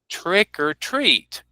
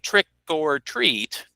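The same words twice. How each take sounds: First: The word 'or' is reduced to 'er'. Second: The word 'or' is said as a full vowel. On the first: The speaker calls it right. "I reduce or to this er sound" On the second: The speaker calls it wrong. "Notice I don't say trick or treat"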